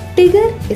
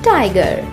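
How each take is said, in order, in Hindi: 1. पहला अक्षर 'tie' जैसा नहीं सुनाई देता। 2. पहला अक्षर 'tie' जैसा सुनाई देता है। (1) "इसका गलत उच्चारण है" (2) "पहले बोलें टाई, फिर इसमें जोड़ें गर"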